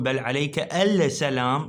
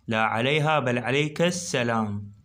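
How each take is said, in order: First: السلام said with the lam sounded, not merged into the sin; wrong lam sound. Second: Said in the usual way. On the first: Shown as a demonstration. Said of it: "ما أقول". (السلام بلفظ اللام خطأً دون إدغامها في السين) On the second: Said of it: "ما أقول بل عليك السلام".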